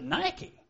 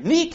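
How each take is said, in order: First: It is said like the shoe brand name. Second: It is said the original Greek way. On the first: This is the everyday way people say it. "We pronounce it Nike. Nike shoes" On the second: This is how the original word is said. "I think, the correct pronunciation"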